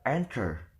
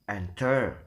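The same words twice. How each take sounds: First: The stress is on the first syllable. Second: The stress is on the second syllable. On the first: The speaker calls it right. "but enter" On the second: The speaker calls it wrong. "We would we will never pronounce it as enter"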